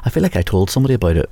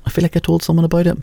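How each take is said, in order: First: Said in the usual way. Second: Repeated higher and quicker; higher, faster. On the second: Shown as a demonstration. Repeats line in another voice.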